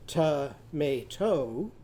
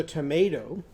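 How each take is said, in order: First: "Tomato" slowly split into to-ma-to; syllable by syllable. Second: Said in the usual way. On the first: Shown as a demonstration. Teacher counting syllables for children, "Tomato" slow and split. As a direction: break "Tomato" into three stretched, separate beats. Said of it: "how many syllables are in tomato?". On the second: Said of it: "how many syllables are in tomato".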